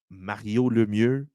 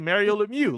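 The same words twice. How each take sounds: First: The name is said with a French accent. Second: The name is said with an English accent. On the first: The pronunciation slips out from habit. "I don't know why it does that, just, like, it it happens" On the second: This is the usual way of saying it. "normally say"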